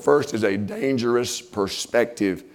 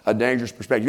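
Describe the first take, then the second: First: "First is a dangerous perspective" drawn out slowly, leaning on "First"; slow emphasis. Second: Said in the usual way. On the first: Shown as a demonstration. Preacher announcing his first point, slow and stressed.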